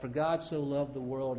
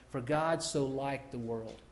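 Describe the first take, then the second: First: Said in the usual way. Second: Slow, leaning on "liked"; stress on liked. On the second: Shown as a demonstration. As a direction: say "liked" slowly and deliberately. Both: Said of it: "and you say".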